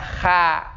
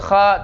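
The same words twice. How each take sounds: First: It is said with the tongue back low, sounding light. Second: It is said with the tongue back raised, sounding heavy. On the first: The speaker calls it wrong. "tidak kha" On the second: The speaker calls it right. "Kenapa disebut kha"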